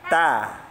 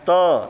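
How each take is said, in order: First: The vowel sounds spread, like a. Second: The vowel sounds rounded, like o. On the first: The speaker calls it right. "tapi ta. Nah, ta, meringis" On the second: The speaker calls it wrong. "Bukan to"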